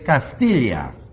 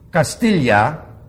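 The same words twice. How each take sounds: First: It is pronounced with a Castilian lisp. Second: It is pronounced plainly, without a lisp.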